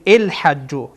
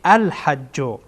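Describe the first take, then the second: First: The word begins with a vowel other than a. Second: The word begins with the vowel a. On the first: The speaker calls it wrong. "نمیگین الحجو" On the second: The speaker calls it right. "فتحه بدهیم یا زر یا زبر بدهیم"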